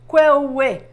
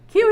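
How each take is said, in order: First: The word is said in a longer, more complex form. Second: The word is said in a short, simple form. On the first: The speaker calls it wrong. "Not kwewe" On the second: The speaker calls it right. "It's much simpler than that"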